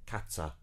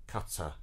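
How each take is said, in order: No difference in how they are said.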